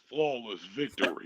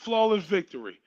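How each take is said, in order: First: It is said in a deep, dramatic announcer voice. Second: It is said in his ordinary speaking voice.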